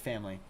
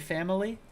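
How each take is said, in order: First: It is said quickly with two syllables. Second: It is said slowly with three syllables. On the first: "if I was speaking quickly, I would say family" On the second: "if I was speaking slowly, I would say family"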